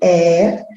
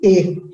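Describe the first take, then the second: First: The vowel is said with an open quality. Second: The vowel is said with a closed quality. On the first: "o E aberto" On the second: "o E fechado"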